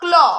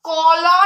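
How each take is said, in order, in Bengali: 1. ক সরাসরি ল-এর সঙ্গে মিশে যায়। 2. ক আর ল-এর মাঝে একটি স্বরধ্বনি শোনা যায়। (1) "না কি বলবো ক্ল" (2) "তাহলে কি ক্ল কল"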